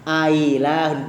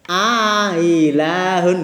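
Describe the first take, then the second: First: The second glottal stop is softened, not fully clear. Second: A long vowel precedes a softened second glottal stop.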